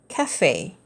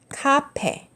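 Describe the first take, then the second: First: The middle consonant is an f sound. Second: The middle consonant is a p sound. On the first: "the original original pronunciation" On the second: "It's pretty much different from the original original pronunciation"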